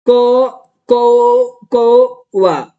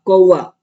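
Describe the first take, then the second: First: कौवा stretched slowly, syllable by syllable as कौ-वा. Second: Said in the usual way. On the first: Shown as a demonstration. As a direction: spell out कौवा slowly, sounding each syllable. (कौवा धीरे-धीरे, एक-एक अक्षर खींचकर) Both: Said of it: "ऐसे बना दोगे".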